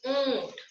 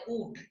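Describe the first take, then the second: First: ऊंट higher, with a long nasal ऊं; stress on ऊ, nasalised. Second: ऊंट said softer as ऊट, no nasal; without nasal. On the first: Teacher showing ऊंट with chandrabindu, stressed and nasalised. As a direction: lean on ऊ through the nose in ऊंट. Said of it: "ऊ पर जोर देते हुए". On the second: Teacher showing ऊंट with chandrabindu removed, without nasal. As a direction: say ऊंट with a purely oral ऊ, as ऊट. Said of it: "चंद्र बिंदु हटा दोगे". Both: Shown as a demonstration.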